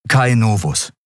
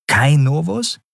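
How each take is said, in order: First: Said in the usual way. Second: "Kai Novus" echoed high with a sharp rise at the end; mocking echo. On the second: A narrator's reading. Orin echoes the boy's name back, mocking and high. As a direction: repeat his name back with a teasing lift.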